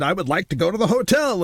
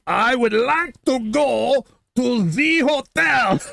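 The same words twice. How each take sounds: First: Said in the usual way. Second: Much higher, slow, mock-shouted word by word; slow emphatic repeat. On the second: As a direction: imitate a tourist spelling it out for a foreigner. Repeats it for uncomprehending cab driver.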